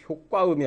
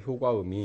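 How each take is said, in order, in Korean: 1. '과'의 자음은 경음입니다. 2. '과'의 자음은 평음입니다. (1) "효과음이 아니라" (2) "이렇게 해서 발음을, 발음을 해야 된다는 얘기죠"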